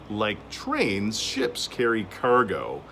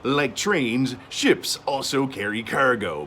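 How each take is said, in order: First: It is said in the speaker's normal voice. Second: It is said in a put-on sailor voice.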